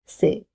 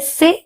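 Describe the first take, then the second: First: The vowel is said without stress. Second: The vowel is said with strong stress. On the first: The speaker calls it wrong. "instead of sé" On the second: The speaker calls it right. "We have to say sé"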